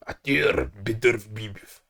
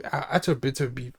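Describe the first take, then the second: First: "Artur Beterbiev" in a slow, lower, mock Russian accent. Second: Said in the usual way. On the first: Shown as a demonstration. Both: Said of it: "my failed Russian accent".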